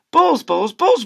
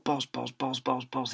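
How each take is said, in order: First: Loud, high frantic shouting of balls; frantic yelling. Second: Softer, muttered balls; teacher muttering balls under his breath. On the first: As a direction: yell each balls louder and higher. Teacher yelling in frenzy. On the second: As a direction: mumble it to yourself. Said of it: "he said under his breath". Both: Acted.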